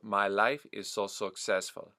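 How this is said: Successful starts with an o-like vowel. "the uh becomes almost like an o"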